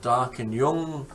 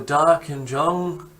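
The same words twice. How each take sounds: First: The consonant sounds like an English Y. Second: The consonant sounds like an English J. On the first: "or a Y" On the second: "whether you pronounce a J as a J"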